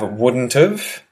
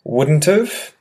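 First: Contracted, with have reduced to a weak sound. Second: Contracted, with have reduced to a weak sound.

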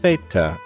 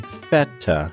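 First: The first vowel has the traditional non-American sound. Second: The first vowel is the American E sound. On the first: "more traditional" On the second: "I choose the American pronunciation with the American E"

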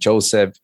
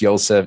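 First: The name begins with a J sound. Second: The name begins with a Y sound. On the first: This is the English way of saying the biblical name. "not Joseph" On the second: This is the Korean way of saying the biblical name. "The J's are also pronounced like Y"

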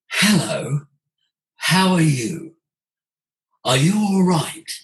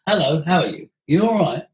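First: It is said with breath, full and resonant. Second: It is said in a plain, everyday voice.

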